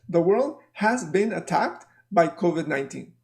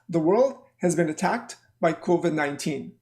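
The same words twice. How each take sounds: First: Every word is stressed separately, without grouping. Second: Words are grouped, with only some words stressed. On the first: The speaker calls it wrong. "many students will say it like this" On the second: The speaker calls it right. "So number one is like this"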